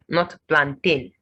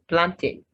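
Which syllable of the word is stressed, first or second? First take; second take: second; first. First: The stress is not on the first syllable. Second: The stress is on the first syllable. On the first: The speaker calls it wrong. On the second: The speaker calls it right. "The stress is on the first level"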